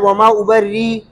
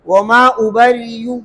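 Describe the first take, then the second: First: The word ends on a held ee with no hamza. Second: The word ends on ya with a faint short u. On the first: "पहली सूरत इब्दाल है" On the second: "हमजा नहीं पढ़ेंगे, या के ऊपर पेश पढ़ेंगे और या के पेश में रोम करेंगे"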